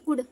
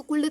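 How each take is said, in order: First: "कुड" with no l before the d; silent L. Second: "कुल्ड" with the l pronounced before the d; wrongly sounded L. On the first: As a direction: say "कुड", going straight from vowel to d. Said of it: "वहाँ का एल silent हो गया". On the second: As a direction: say "कुल्ड" as spelt, l fully sounded. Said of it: "अब इसको कुल्ड तो पढ़ेंगे नहीं". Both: Shown as a demonstration.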